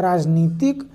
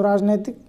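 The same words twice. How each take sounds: First: राजनीतिक with a long "ee" in the middle: raaj-neetik; the right form राजनीतिक, long "ee" in the middle; correct spelling said aloud. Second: राजनैतिक with "ai" in the middle: raaj-naitik; the wrong form राजनैतिक, "nai" in the middle; wrong spelling said aloud. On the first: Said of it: "होता है". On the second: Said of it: "कोई शब्द होता नहीं". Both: Shown as a demonstration.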